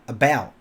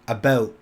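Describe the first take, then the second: First: It is said with an American accent. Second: It is said with a Canadian accent. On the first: "Instead of about" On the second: "they'll say something like about"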